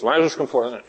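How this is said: It is said timidly and quietly, hedging. The speaker doubts it will really work. The speaker calls it wrong. "He didn't do one of these"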